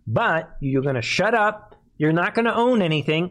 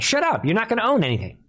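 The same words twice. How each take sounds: First: Said in the usual way. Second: Faster and higher, pressing it home; heated fast repeat. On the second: Real, not acted. Host repeating his warning to viewers, faster and higher. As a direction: rattle it off higher, hammering the point.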